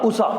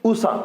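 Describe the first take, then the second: No difference in how they are said.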